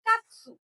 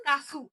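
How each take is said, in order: First: কাতসু said as one joined word, ka-tsu; small tsu pronunciation; joined katsu. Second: কাসু said as two open syllables, ka-su; big su pronunciation; plain kasu. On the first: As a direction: run কাতসু together with a clipped tsu. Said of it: "উচ্চারণটা হবে কাতসু". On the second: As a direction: give কাসু a full su, no clipping. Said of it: "উচ্চারণ হতো কাসু". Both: Shown as a demonstration.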